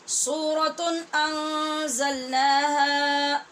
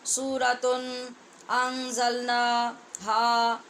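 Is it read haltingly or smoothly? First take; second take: smoothly; haltingly. First: It is read smoothly, the words joined together. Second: It is read haltingly, with hesitant breaks.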